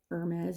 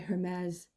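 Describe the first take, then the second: First: The word begins without any H sound. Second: The word begins with an audible H sound. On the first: The speaker calls it right. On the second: The speaker calls it wrong.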